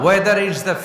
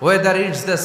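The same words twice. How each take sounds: The two takes are said the same way.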